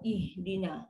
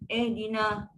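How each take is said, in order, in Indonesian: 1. Vokal pertama adalah 'ih' yang rapat dengan embusan napas. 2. Vokal pertama adalah 'eh' yang longgar dan terbuka. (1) "So bila kita bawah ih dina. Dia ada bunyi tu" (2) "bunyi eh pun bunyi malas"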